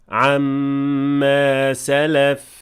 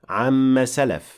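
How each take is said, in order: First: The vowel after the doubled m is held long. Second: The vowel after the doubled m is cut short. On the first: The speaker calls it right. "don't forget to extend this alif here into its natural form of two counts" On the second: The speaker calls it wrong. "Do not say amma salaf, because that is not correct"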